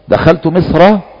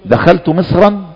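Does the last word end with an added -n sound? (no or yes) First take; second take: no; yes. First: The final word ends without any added n sound. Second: The final word ends with an added n sound. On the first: It refers to the named country itself. "صارت علما فتكون هنا ممنوعة من الصرف، فلهذا لا تنون وانما تفتح" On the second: It refers to some city among many. "دخلت مصرا من الأمصار، بلدا من البلدان، فهنا تنون"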